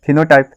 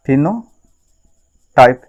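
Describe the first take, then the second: First: Said in the usual way. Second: phenotype stretched out very slowly, syllable by syllable; slow drawn-out term. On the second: Shown as a demonstration. Teacher drilling the term for students, slow and drawn out.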